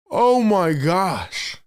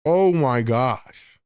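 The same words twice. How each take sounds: First: High start falling away, very slow; drawn-out astonished exclamation; stunned disbelief. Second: Subdued disbelief. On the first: Streamer reeling from a near dunk, stunned disbelief. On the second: Streamer still stunned by a near dunk, subdued disbelief. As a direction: let the amazement sink in, drawn out. Same reaction, settling after it. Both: Real, not acted.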